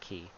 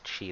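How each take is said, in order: First: The word begins with a 'k' sound. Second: The word begins with a 'ch' sound. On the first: The speaker calls it wrong. "not Ki" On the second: The speaker calls it right. "that's Chi"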